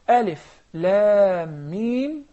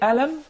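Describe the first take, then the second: First: It is read as three lengthened letter names. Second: It is read as one short word. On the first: "each one of those letters are letters of mad" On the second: "then this is just a letter"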